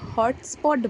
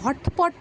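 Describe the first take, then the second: First: An s sound comes before the p. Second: No s sound comes before the p. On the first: The speaker calls it right. "ওটাকে হটস্পট বলে" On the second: The speaker calls it wrong. "হটপট না"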